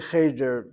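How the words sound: It is said with an Ashkenazic pronunciation.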